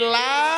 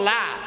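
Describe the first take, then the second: First: The vowel is drawn out long. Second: The vowel is kept short. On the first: It means there is none. The speaker calls it right. "লা টান আছে" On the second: It means there surely is. The speaker calls it wrong. "শুধু লাম জবর লা"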